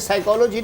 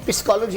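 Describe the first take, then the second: First: The word begins with a 'sai' sound. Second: The word begins with a 'pis' sound. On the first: "साइकोलॉजी नहीं" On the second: "पिस्कोलॉजी होता है"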